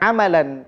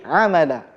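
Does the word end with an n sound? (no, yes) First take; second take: yes; no. First: The word ends with an n sound. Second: The word ends on a vowel, without n. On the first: The speaker calls it wrong. "Bukan amalan" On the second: The speaker calls it right. "tapi amala. Begitu cara bacanya"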